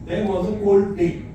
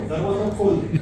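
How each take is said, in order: First: The phrase is said slowly and carefully. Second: The phrase is said quickly and run together. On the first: It describes a cold day in English. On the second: It sounds like asking someone to open the door.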